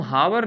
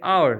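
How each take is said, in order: First: हावर with a spoken h at the start; wrong pronunciation. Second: आवर starting on the vowel, no h; silent h. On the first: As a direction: say हावर as "hour" with a breathy h. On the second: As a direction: say आवर as "our", h dropped. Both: Shown as a demonstration. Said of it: "इसको हम हावर नहीं कहते".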